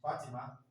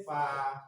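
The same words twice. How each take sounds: First: Said in the usual way. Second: Fatima stretched into separate syllables, FA, TI, MA, with gaps. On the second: Shown as a demonstration. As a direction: break Fatima slowly into its three syllables. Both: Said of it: "They may, they may say".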